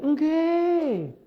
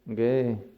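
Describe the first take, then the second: First: The yes sounds warm and eager. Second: The yes sounds flat and neutral. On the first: The deceased was a good person. "Ketika yang meninggal itu baik" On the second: The deceased was an ordinary person. "Kalau yang meninggal itu biasa"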